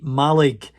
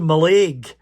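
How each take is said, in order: First: The name is said the way local people say it. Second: The name is said the way an outsider says it. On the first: The speaker belongs to the area. The speaker calls it right. "is how the locals pronounce it" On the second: The speaker comes from elsewhere. The speaker calls it wrong. "they know that you're from away"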